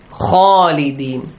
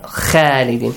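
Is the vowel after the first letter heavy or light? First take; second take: heavy; light. First: The first vowel is heavy, with a dark aw sound. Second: The first vowel is light, with a clear a sound. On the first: The speaker calls it right. "must be pronounced with an aw sound" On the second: The speaker calls it wrong.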